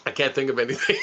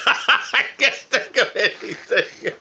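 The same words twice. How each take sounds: First: Said in the usual way. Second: Slow, higher, laughing through it. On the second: Real, not acted. Cracking up at his own blank mind, laughing. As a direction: laugh the words out slowly.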